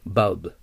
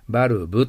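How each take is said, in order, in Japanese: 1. 最後のbは母音を入れずに切ります。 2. 最後のbの後に母音を入れます。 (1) "ブは母音を残さないように切ってください" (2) "バルブと言ったらダメです"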